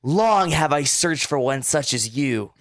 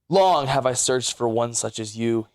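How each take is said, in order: First: It is read in a voice mimicking Camden. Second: It is read in the reader's own voice.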